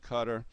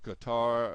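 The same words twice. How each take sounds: First: It is pronounced the way many people say it. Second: It is pronounced the way the spelling suggests. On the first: "a lot of people call it Qatar" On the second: "it looks like you would pronounce it Qatar"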